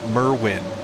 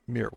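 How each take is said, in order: First: The first vowel has the American pronunciation. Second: The first vowel sounds like in miracle. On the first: This is how Americans say the name. "Here in America, we pronounce it" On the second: This is how the name owner says it. "Like miracle"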